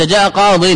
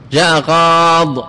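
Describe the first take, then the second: First: قاض ending in a voiced -in; with tanween. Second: قاض drawn out, ending on the bare consonant; slow "qaad" for قاض, no final vowel; stopped without ya. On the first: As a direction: say قاض as "qadin". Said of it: "حذف الياء، هي محذوفة". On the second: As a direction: stretch the long aa of قاض and drop the -in. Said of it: "احذف الياء". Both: Shown as a demonstration.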